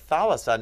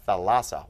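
First: "thalassa" stressed on the opening THA, higher and lighter after; stress on first syllable. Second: "thalassa" with the accent moved onto LA; stress on second syllable. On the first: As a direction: say "thalassa" as THA-la-sa, accent up front. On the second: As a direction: say "thalassa" as tha-LA-sa, punching the middle. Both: Shown as a demonstration. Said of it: "Boom, it moved here".

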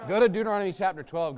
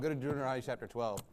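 First: Said in the usual way. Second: Softer, quicker aside; fast murmured repeat; quieter repeat. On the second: Real, not acted. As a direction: repeat it low to yourself. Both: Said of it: "repeated instruction".

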